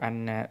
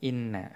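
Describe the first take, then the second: First: The particle begins with an a vowel. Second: The particle begins with an i vowel. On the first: The clause acts as a noun standing in for the answer. "Kalau dibaca fathah" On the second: The clause is the answer to the oath. "kalau dibaca kasroh"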